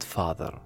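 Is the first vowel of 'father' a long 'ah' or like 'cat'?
ah. The first vowel is a long open ah. "وليست father"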